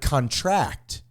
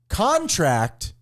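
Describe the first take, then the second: First: The stress is on the last syllable. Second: The stress is on the first syllable. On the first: The word is used as a verb. "stress on the last syllable indicates a verb" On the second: The word is used as a noun. "stress on the first syllable indicates a noun"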